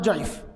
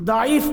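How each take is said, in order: First: The word starts with a J sound. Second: The word starts with a D sound. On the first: The speaker calls it wrong. "উচ্চারণও ঠিক মতো করতে পারে" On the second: The speaker calls it right. "এটা মুহাদ্দিসদের পরিভাষা।"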